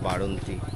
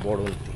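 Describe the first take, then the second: First: The first vowel is an open 'a' sound. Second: The first vowel is an 'o' sound. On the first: The speaker calls it wrong. "Not বাড়ন্তি" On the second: The speaker calls it right. "জায়গাটার নাম বড়ন্তি"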